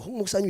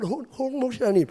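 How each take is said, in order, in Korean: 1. 원어민 발음으로 또렷하게 말해졌어요. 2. 뒤틀린, 외국인처럼 들리는 발음으로 말해졌어요. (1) "우리 홍 목사님 이렇게 부르면" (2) "그러면 홍 목사님 이래버리는 거예요. 외국 사람도 아닌데"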